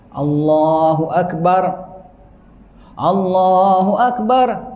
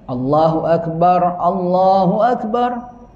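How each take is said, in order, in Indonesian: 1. Akbar pertama berhenti penuh sebelum frasa berikutnya. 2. Akbar pertama berakhir dengan bunyi r yang polos, tanpa jeda. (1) "Yang keempat diwakafkan" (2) "tidak diwakaf tapi dijazmkan"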